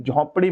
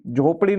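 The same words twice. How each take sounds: First: झोंपड़ी with a nasalised first vowel; correct pronunciation. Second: झोपड़ी with plain o, no nasal; wrong pronunciation. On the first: Teacher correcting for students, झोंपड़ी with nasal vowel. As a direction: say झोंपड़ी as "jhom-pri". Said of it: "झोंपड़ी बोलेंगे". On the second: Teacher rejecting the form for students, झोपड़ी without nasal vowel. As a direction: say झोपड़ी as "jho-pri". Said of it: "झोपड़ी नहीं होगा". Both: Shown as a demonstration.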